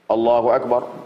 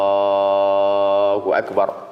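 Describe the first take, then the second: First: The takbir is said short and quick. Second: The takbir is drawn out long.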